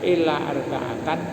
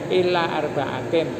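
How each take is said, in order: First: The last word ends with an 'an' sound. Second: The last word ends with an 'in' sound. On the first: It means except four people. "Ada yang baca kecuali empat, itu dibaca illa arba'atan" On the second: It means other than four people. "Ada yang baca illa arba'atin"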